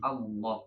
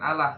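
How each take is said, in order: First: The L is dark and thick. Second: The L is light and thin. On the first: The speaker calls it right. "tapi Allah ya" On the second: The speaker calls it wrong. "bukan Allah"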